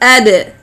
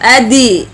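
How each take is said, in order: First: The d bounces with no full vowel after. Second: The d is followed by an i vowel. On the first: The speaker calls it right. "It is ad, ad, like this" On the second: The speaker calls it wrong. "nor like kasra, adi"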